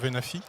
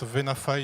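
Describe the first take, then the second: First: The name is said with a French pronunciation. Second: The name is said with an American pronunciation. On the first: "et pas Venafi" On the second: "les Américains prononcent Venafy"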